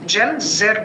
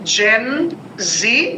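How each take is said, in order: First: The final letter is pronounced as zed. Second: The final letter is pronounced as zee. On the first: "যদি এটা ব্রিটিশরা বলতো" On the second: "America থেকে যেহেতু টার্মটা যেহেতু এসছে"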